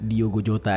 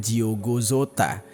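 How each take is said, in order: First: The name is pronounced the Indonesian way. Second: The name is pronounced the Portuguese way. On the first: "karena kita pakai bahasa Indonesia, kayaknya gue ucapinnya" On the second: "Kalau dari bahasa Portugis itu ejaannya"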